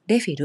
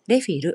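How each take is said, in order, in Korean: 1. 일본식 외래어 발음으로 말합니다. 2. 일본식 외래어 발음으로 말합니다.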